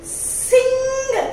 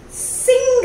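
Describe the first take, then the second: First: "Sing" repeated with a falling tune; repeated word. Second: "Sing" said loud and high with a short i; modeled word. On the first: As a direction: say "Sing" again and let it fall. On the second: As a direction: call out "Sing" clearly, hitting the short i. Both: Shown as a demonstration. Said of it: "So I will read out".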